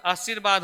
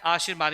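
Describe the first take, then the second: First: आशीर्वाद as aa-sir-baad, short "si"; wrong form, short i. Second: आशीर्वाद with weight on a long "shee"; stress on SHI. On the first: Teacher showing the misread spelling, आशीर्वाद as aa-sir-baad. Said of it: "जबकि शब्द हमारा क्या है". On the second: Teacher explaining the stress, आशीर्वाद leaning on long "shee". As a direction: say आशीर्वाद as aa-SHEER-baad. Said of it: "बलाघात वहाँ पे शा पे". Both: Shown as a demonstration.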